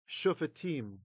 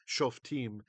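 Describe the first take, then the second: First: The word has three syllables, with a middle vowel. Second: The word has two syllables, without a middle vowel. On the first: This is the pronunciation of the text being read. "instead of shofetim" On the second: This is the modern Hebrew pronunciation. "You're probably used to the modern Hebrew pronunciation"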